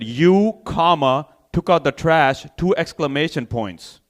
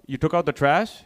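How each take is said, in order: First: "took out the trash" stated with falling end, punctuation spoken; firm command, not question. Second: "you took out the trash" with rising end; asked as question. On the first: Wife correcting husband about the trash, commanding. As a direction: order "You, comma, took out the trash" emphatically. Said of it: "I didn't s-, I say that". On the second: Wife checking on the trash chore, questioning. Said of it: "I say that as a question". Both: Acted.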